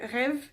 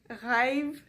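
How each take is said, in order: First: The vowel is short and single. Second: The vowel is drawn out like two vowels. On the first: "comme à la française, qui est très court" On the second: "nous on va dire"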